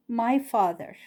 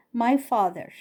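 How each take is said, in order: Both takes have the same delivery.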